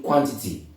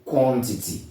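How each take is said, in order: First: The first syllable is said like qua. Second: The first syllable is said like quo. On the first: The speaker calls it wrong. "don't say qua" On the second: The speaker calls it right. "It's supposed to be quo"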